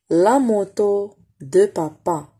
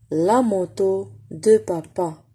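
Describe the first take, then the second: First: "La moto de papa" spaced out slowly; slow reading model. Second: "La moto de papa" slowly again; slow repeat. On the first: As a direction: read slowly word by word. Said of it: "reading model for pupils". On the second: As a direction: model the sentence slowly for the class. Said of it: "repeat for pupils". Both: Shown as a demonstration.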